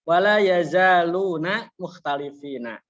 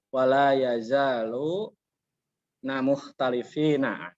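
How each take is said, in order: First: The word is said as one unbroken unit. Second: The word is broken before its last syllable. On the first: The speaker calls it right. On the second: The speaker calls it wrong.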